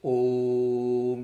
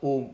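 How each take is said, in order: First: The vowel is held out very long. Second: The vowel is short, not held out. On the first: The speaker calls it right. "It should be a longer vowel. It's called Pluta. ... it is Om like that. This is the real pronunciation of Om" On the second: The speaker calls it wrong. "It is not Om or that. That's wrong"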